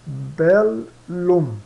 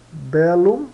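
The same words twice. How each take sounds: First: "bellum" as bel... lum, two drawn-out syllables; separated double L. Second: "bellum" as one word, lifted at the end; double L sounded. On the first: Teacher demonstrating two L sounds, syllables held apart. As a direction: slowly split "bellum" between the two Ls. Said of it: "se pronunciam em dois sons". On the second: Teacher repeats the Latin example for learners, clearly articulated. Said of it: "se pronunciam separadamente". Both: Shown as a demonstration.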